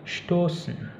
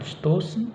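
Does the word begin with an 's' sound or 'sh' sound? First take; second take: sh; s. First: It begins with an 'sh' sound. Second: It begins with a plain 's' sound. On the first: The speaker calls it right. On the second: The speaker calls it wrong.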